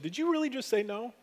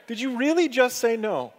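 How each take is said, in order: First: Higher, softer questioning with a rise; gently incredulous question, voice lifting at the end; retold pointed question. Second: "really" stressed high, falling away on "no"; retold emphatic challenge. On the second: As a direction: repeat the question firmly, punching "really". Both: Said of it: "the Lord poked me in the side and said".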